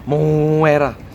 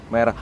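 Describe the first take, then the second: First: An added u sound stretches the first vowel. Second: It is said plainly without an added vowel.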